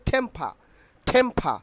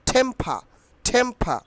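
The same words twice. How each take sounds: Both takes have the same delivery.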